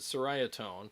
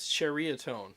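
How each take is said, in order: First: The name begins with an 's' sound. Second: The name begins with a 'ch' sound. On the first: The speaker calls it wrong. "So I pronounce it Soraya tone" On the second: The speaker calls it right. "they said it's pronounced churia"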